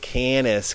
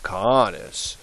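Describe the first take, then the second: First: The first vowel is not an open 'ah'. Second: The first vowel is an open 'ah'. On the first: The speaker calls it wrong. "don't say canis because that just sounds awful" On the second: The speaker calls it right. "A's are always like ah"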